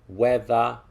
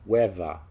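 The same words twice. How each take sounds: First: The middle consonant is a voiced TH sound. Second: The middle consonant is a V sound.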